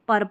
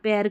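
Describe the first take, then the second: First: The vowel sounds like the 'er' in her. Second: The vowel sounds like the 'air' in pair. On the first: The speaker calls it right. "तो पर पढ़ना है" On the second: The speaker calls it wrong. "पैर करके पढ़ दिया कुछ"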